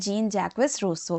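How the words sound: The name is said with English pronunciation.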